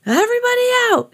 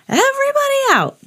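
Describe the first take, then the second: First: Very high, fast lifeguard shout. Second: Very high lifeguard shout repeated. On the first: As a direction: clear the water, shout it. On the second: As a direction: call it out across the beach. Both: A narrator's reading. Lifeguard ordering swimmers out, shouting. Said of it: "he shouted".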